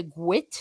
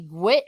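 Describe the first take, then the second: First: "gwit" in the Cork Irish way, pitch lifted; Cork dialect pronunciation. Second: Said in the usual way. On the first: Shown as a demonstration. Showing listeners how Cork says it, "gwit" in dialect. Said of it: "we say like a gwit sound". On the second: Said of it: "when you say gwit".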